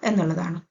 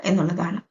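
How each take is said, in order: The two takes are said the same way.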